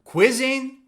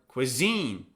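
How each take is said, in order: First: The stress is on the first syllable. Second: The stress is on the second syllable. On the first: The speaker calls it wrong. "Is it on the first syllable" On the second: The speaker calls it right. "or the second syllable"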